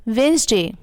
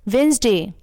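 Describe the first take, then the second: Both takes have the same delivery.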